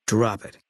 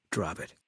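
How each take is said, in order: First: Curt command. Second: Quiet warning. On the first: Sniper shutting down the player's question, curt command. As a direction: snap the order to end it. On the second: Sniper refusing to discuss his wife, quiet warning. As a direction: say it under the breath, done arguing. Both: Acted.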